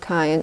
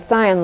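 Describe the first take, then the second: First: It is said like 'cayenne', the pepper. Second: It is said like 'sigh-an', two syllables. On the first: "cayenne sounds like cayenne pepper" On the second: "I call it cyan"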